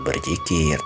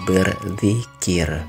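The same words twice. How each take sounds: First: The z is a plain z sound. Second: The z is th-like, tongue between teeth. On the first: The speaker calls it wrong. "bukan berzikir" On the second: The speaker calls it right. "tapi berzikir ... lidahnya yang digigit oleh gigi"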